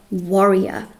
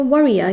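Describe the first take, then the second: First: "warrior" said with the open "war" vowel. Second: "warrior" said as "worrier", with an "uh" vowel like "worry". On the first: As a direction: say "warrior" clearly starting with "war". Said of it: "As in war-, warrior". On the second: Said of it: "like, worry, worry". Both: Shown as a demonstration.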